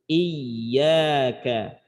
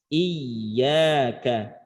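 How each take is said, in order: The two takes are said the same way.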